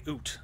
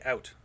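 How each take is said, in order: First: "oot" with a long oo, like boot; Canadian vowel. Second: Said in the usual way. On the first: Shown as a demonstration. Canadian showing what he's accused of saying, "oot" with an oo. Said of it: "apparently I say". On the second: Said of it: "when I say".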